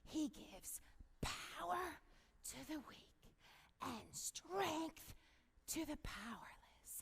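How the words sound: It is said very quietly, almost hushed.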